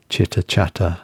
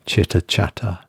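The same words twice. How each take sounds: The two takes are said the same way.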